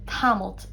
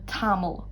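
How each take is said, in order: First: The word ends with an added t sound. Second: The word ends without any t sound. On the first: This is the northern dialect form. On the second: This is the form used in other dialects.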